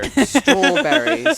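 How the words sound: A comically exaggerated British accent. The speaker calls it wrong. "I like do it and I sound like Austin Powers"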